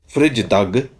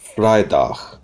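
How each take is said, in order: First: The first syllable does not sound like 'fry'. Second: The first syllable sounds like 'fry'. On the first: The speaker calls it wrong. "So it's not Vrijdag" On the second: The speaker calls it right. "I and J is pronounced as I, fry"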